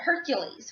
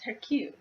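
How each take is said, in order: First: The name ends with an s sound. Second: The name ends without an s sound. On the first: The speaker calls it wrong. "Everyone mispronounces it" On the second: The speaker calls it right. "it's the French pronunciation of it"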